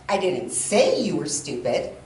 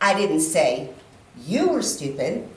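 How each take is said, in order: First: The stress is on the word 'say'. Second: The stress is on the word 'you'. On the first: The speaker thought it but never said it. "that would mean I thought it, but the words never came out of my mouth" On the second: It was said about someone else. "maybe the person sitting next to you, but not you"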